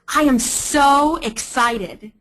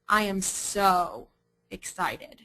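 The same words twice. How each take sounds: First: It is said with genuine, lively excitement. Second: It is said flatly, with a sarcastic tone. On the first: The speaker really is excited. "I'm jumping up and down, I'm waving my hands at you" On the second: The speaker is not excited at all. "I'm slouching. You can hear the sarcasm in my tone"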